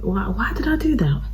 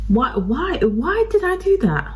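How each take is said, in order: First: Hushed, breathy why did I; whispered self-reproach. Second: Exasperated wail. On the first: Vlogger scolding herself over ruined makeup, whispering. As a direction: whisper it to yourself in dismay. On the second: Vlogger wailing at herself over ruined makeup, exasperated. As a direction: pitch jumps way higher, exasperated. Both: Real, not acted.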